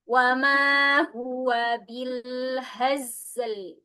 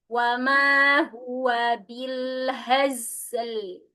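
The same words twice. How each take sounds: Both takes have the same delivery.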